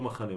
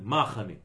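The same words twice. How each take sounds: First: The stress is on the last syllable. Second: The stress is on the first syllable.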